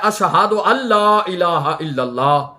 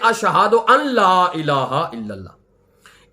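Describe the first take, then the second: First: The n merges into the l with no n sound. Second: An n sound is heard before the l. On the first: The speaker calls it right. "नून की आवाज बिल्कुल खत्म हो जाती है। हमने पढ़ना है" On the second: The speaker calls it wrong. "ना कि"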